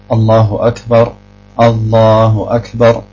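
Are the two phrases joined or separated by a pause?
separated. A pause separates the two phrases. The speaker calls it wrong. "man sagt nicht"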